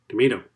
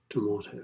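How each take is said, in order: First: Tomato as American "tuh-MAY-doh" with a flapped t. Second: Tomato as British "tuh-MAH-toh" with a crisp t. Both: Shown as a demonstration. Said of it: "I wish I was British".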